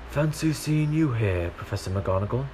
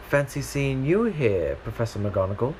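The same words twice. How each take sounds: First: The voice sounds older, like an aged Dumbledore. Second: The voice sounds younger, not aged.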